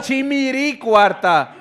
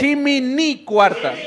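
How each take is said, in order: First: "chimiri cuarta" very slow, higher, stressing the R syllable; pronounced with R. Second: "chimini cuarta" very slow, higher, stressing the N syllable; pronounced with N. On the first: Host calling a show of hands, "chimiri cuarta" drawn out with R. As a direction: draw out "chimiri cuarta" with a clear R. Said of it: "Chimiri con R". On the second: Host calling a show of hands, "chimini cuarta" drawn out with N. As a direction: draw out "chimini cuarta" with a clear N. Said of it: "quien dice con N chimini". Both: Shown as a demonstration.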